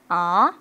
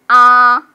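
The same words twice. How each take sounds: First: The pitch rises from middle to high. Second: The pitch stays high and level. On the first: "2성은 코에서 눈 정도로 올라가는 거예요" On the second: "1성은 그냥 이기, 여기, 가장 높은데"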